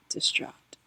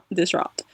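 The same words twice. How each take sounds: First: Whispered. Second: Said in the usual way. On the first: Acted. Telling viewers about her breakup, whispering the word "Distraught". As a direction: breathe "Distraught" as a soft unvoiced whisper.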